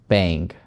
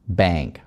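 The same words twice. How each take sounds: First: The vowel is nasal and glides toward 'ee'. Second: The vowel is plain without any glide. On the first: "американцы очень любят это все произносить назально через ang" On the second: "В отличие от общеупотребительного"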